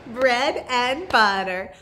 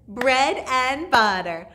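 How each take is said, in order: Both takes have the same delivery.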